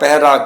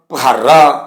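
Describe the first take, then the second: First: No long vowel follows the first syllable. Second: A long, pressed 'a' vowel follows the first syllable. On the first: The speaker calls it right. "ਜਿਸ ਤਰ੍ਹਾਂ ਇਹਨਾਂ ਦੇ ਅਸੀਂ ਉਚਾਰਨ ਜਿਹੜੇ ਹਾਂ" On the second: The speaker calls it wrong. "ਇਸ ਤਰ੍ਹਾਂ ਦਬਾ ਕੇ ਅਧਿਕ ਲਗਾ ਕੇ ਨਹੀਂ ਕਰਦੇ"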